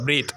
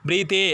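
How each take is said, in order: First: The word ends on the th consonant. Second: An extra vowel sound is added at the end. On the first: The speaker calls it right. "ப்ரீத் அவ்வளோதான்" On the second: The speaker calls it wrong. "ப்ரீத்தே அப்படின்னு சொல்லக்கூடாது"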